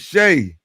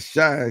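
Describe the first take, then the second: First: The name's vowel sounds like the one in 'day'. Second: The name's vowel sounds like the one in 'sky'. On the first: The speaker calls it right. "That man name is Shay" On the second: The speaker calls it wrong. "not Shy"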